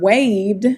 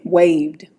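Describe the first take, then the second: First: Waved ending in a clear D. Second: Waved said low, final D clear; waved with D ending. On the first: Teacher showing the student the D at the end of waved. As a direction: finish waved on a D. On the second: Teacher repeating waved for the student, D ending clear. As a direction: land the D in waved. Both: Shown as a demonstration. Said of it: "it sounds like a D".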